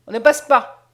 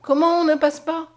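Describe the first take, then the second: First: Loud, rude refusal; rough soldier's refusal, punched out loud; rude, gruff order. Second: High, loud cry of alarm; startled, raised-pitch protest; frightened. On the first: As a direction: bar the way with a loud, curt command. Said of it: "d'une voix rude". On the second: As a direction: recoil in alarm at being refused. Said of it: "reculant effrayée". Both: A narrator's reading.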